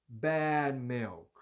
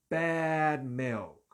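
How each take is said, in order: No difference in how they are said.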